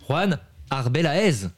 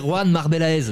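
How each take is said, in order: First: The surname begins with a vowel sound. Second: The surname begins with an M sound. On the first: The speaker calls it right. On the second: The speaker calls it wrong. "j'allais dire Juan Marbelez. Non"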